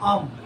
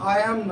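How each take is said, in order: First: The two words are merged into one contraction. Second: Both words are said separately and in full. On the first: The speaker calls it right. "উচ্চারণটা অ্যাসেন্টটা ঠিক হবে আম" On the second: The speaker calls it wrong. "নাই, not আই অ্যাম"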